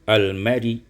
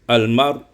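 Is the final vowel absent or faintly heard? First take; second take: faint; absent. First: A faint partial vowel follows the final consonant. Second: The word ends on the consonant with no vowel. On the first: "dibaca dengan rum" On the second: "dibaca dengan sukun"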